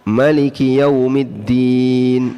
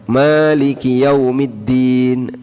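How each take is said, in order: First: The first vowel of Maliki is short. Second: The first vowel of Maliki is long. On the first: "dibaca pendek" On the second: "dibaca pan? panjang"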